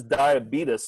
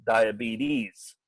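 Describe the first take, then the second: First: Diabetes said "die-a-BEE-tus"; Wilford Brimley. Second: Diabetes said "die-a-BEE-teez"; endocrinologist's pronunciation. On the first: Describing the clip to listeners, diabetes as "die-a-BEE-tus". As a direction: end diabetes on a short "tus". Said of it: "he says diabetes throughout the whole thing". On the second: Describing the clip to listeners, diabetes as "die-a-BEE-teez". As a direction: end diabetes on a long "teez". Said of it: "an actual endocrinologist in there that says". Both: Retold or imitated.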